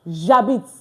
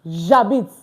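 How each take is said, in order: The two takes are said the same way.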